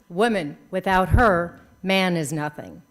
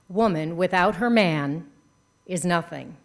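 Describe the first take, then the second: First: The phrase breaks after the word her. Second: The phrase breaks after the word man. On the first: A man is nothing without a woman. "where you choose to put your punctuation" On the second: A woman is nothing without a man. "You heard"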